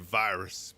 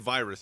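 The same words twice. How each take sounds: First: The word is said with a slight southern twang. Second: The word is said without a southern twang. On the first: The speaker calls it right. "he would say virus, because Optimus has a very slight southern twang" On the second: The speaker calls it wrong. "he wouldn't say virus"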